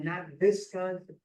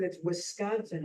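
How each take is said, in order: First: "Visconsin" with a V in place of the W; mock his "Visconsin", V sound up front; imitating father's mistake. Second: "Wisconsin" with a clear W at the start; correct Wisconsin. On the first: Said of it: "He'd say Visconsin". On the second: Shown as a demonstration. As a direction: stress the right W sound in "Wisconsin". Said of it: "God damn it".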